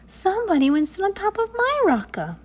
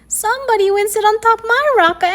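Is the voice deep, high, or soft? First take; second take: soft; high. First: The voice is soft and sweet. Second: The voice is high and squeaky. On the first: "in her soft, sweet voice" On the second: "in his high, squeaky voice"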